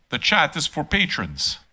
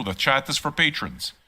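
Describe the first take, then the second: First: "chat" hit hard, whole line slow; slow and deliberate, with weight on "chat"; firm stress on chat. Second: Said in the usual way. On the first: Shown as a demonstration. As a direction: lean on "chat" and slow every word.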